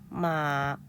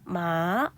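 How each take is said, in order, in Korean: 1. 높고 평평하게 유지돼요. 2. 낮게 내려갔다가 올라가요. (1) "일성이니까 마" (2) "삼성은 마"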